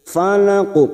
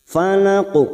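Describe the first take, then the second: No difference in how they are said.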